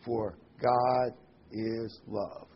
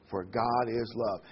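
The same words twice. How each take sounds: First: "God is love" very slow, each word set apart; emphatic, spaced-out words. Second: Said in the usual way. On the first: Shown as a demonstration. Preacher emphasizing a verse to listeners, slow and deliberate. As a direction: pause between "God", "is" and "love". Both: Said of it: "here's a word I want to emphasize".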